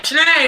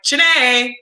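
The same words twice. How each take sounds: First: Higher, louder, stern "Chiney" with a falling end; coach stern call. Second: A firm call of the name "Chiney"; coach calling name. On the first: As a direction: call "Chiney" sternly before a long stare. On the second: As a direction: say "Chiney" like a coach summoning a player. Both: Retold or imitated. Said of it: "I always do her voice".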